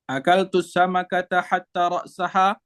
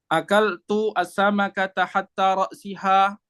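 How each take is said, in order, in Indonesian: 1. Kata terakhir memiliki vokal a setelah ra's. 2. Kata terakhir memiliki vokal i setelah ra's. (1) "harfu atfin" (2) "hatta sini huruf jar"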